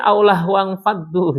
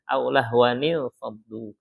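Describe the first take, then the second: First: The words join with no 'ni' before 'faddu'. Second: The words join with a 'ni' before 'faddu'. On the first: The speaker calls it wrong. "Jadi selama ini saya salah baca ya" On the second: The speaker calls it right. "Dia harus ada nun nyambungnya, nun wiqayahnya"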